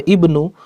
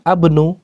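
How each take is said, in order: First: The word begins with an i vowel. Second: The word begins with an a vowel. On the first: The speaker calls it right. "maka dibaca ibnu" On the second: The speaker calls it wrong. "bukan abnu"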